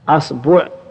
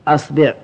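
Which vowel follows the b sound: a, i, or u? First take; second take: u; i. First: The b is followed by the vowel u. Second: The b is followed by the vowel i. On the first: "والضم" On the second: "والكسر"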